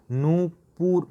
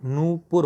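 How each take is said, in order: First: नूपुर with a long ऊ, said higher; correct form stressed. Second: नूपुर said slowly and clearly; correct form, slow. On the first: Teacher to students, stressing the correct word. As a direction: lift and stretch नूपुर. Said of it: "नूपुर पढ़ लेते हैं". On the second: Teacher to students, slowly repeating the correct word. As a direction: spell out नूपुर by ear, slowly. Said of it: "नूपुर होता है". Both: Shown as a demonstration.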